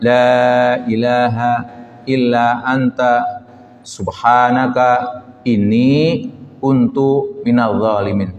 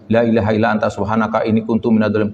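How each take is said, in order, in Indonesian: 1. Ini dibaca dengan hati-hati, mengikuti kaidah tajwid. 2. Ini dibaca terburu-buru, tidak mengikuti kaidah tajwid. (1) "harus sesuai dengan teks Qur'annya" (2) "banyak orang mengejar empat puluh, bacanya tidak melihat kaidah tajwid"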